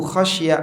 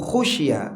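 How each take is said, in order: First: The first vowel of the verb is 'a'. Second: The first vowel of the verb is 'u'. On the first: The Prophet himself feared it. "Jika dibaca annahu khasya ayyutakhadha masjidah, beliau takut kuburannya dijadikan masjid" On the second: An unnamed party feared it. "Namun jika dibaca annahu khusya ayyutakhadha masjidan, hanya saja dikhawatirkan"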